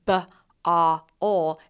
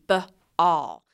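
First: The word is broken into three separate sounds. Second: The word is broken into two parts. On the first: The speaker calls it wrong. "instead of saying b-a-ol" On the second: The speaker calls it right. "it would be b-all"

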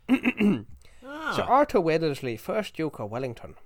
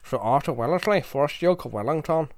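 First: It is said in a Dublin accent. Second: It is said in a Belfast accent. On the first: "I should have tried it in a Dublin accent" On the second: "I can do Belfast"

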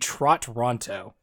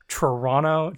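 First: The T sounds in the name are clearly pronounced. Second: The T sounds in the name are dropped. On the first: "to not say it with my accent, it would be Trot Ronto" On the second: "to say it in the local thing, you tend to not to include the T's"

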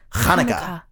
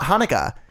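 First: The word begins with a throaty ch sound. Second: The word begins with a plain h sound. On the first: The speaker calls it right. "it's Hanukkah" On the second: The speaker calls it wrong. "if you do it with an H and you say Hanukkah, it's not Hanukkah"

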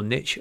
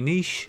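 First: The word is pronounced the American way. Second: The word is pronounced the non-American way.

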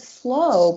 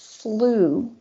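First: The word ends in an 'oh' vowel sound. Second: The word ends in an 'oo' vowel sound. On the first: The speaker calls it wrong. "I could have sworn they said slow" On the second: The speaker calls it right. "but it's slew"

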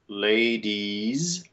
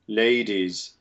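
First: The ending has a closed E vowel. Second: The ending has a more open vowel. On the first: "the North American way is to make either a schwa or a closed E" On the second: "In British English, it kind of splits the difference and tends to keep this quasi-open ear"

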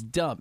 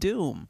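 First: The vowel is short, as in 'dumb'. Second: The vowel is long, as in 'doom'. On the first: The name is read literally as spelled. "It literally says dumb" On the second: The name is read as intended. "it's pronounced doom"

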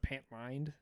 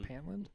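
First: The second syllable sounds like 'lined'. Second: The second syllable sounds like 'land'. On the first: This is how the film says the name. "they pronounce it Pantlined" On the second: This is how the speaker thinks it is said. "Isn't it Pantland?"

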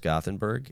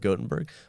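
First: The name is said the British way. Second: The name is said the American way. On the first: "in the UK, it's typically pronounced Gothenburg" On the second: "In the US, most places go with Gothenburg"

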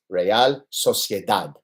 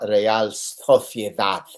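First: The c is pronounced like English s. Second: The c is pronounced like English th. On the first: The speaker calls it right. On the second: The speaker calls it wrong. "enough with the lisp. It's not"

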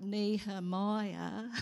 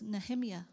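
First: Every syllable is drawn out, Australian style. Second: It is said the Hebrew way.

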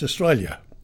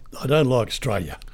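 First: The L sound in the word is pronounced. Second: The L sound in the word is dropped. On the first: The speaker calls it right. "There's an L in there. You've got to pronounce the L" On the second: The speaker calls it wrong. "I don't like Australia"

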